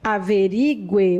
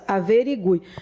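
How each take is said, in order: First: The stress falls on the syllable 'ri'. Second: The stress falls on the syllable 'gu'. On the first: The speaker calls it wrong. "você está pronunciando errado" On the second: The speaker calls it right. "A pronúncia correta é averigue, porque é bem aqui que era a força"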